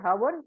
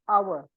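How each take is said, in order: First: The word begins with an h sound. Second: The word begins with a vowel sound. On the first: The speaker calls it wrong. "We do not say hover" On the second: The speaker calls it right. "we say hour"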